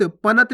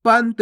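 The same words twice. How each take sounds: First: पनत split as pa-nat; गलत उच्चारण. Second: पंत drawn out, n joined to the t; one long syllable in पंत, no vowel after n; सही उच्चारण. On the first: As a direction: put a full vowel after the n in पनत. (पनत, पूरा न बोलकर) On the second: (पंत, आधा न बोलकर) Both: Shown as a demonstration. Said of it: "पनत नहीं".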